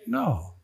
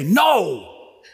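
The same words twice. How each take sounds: First: It sounds gentle and caring. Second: It sounds annoyed and sharp.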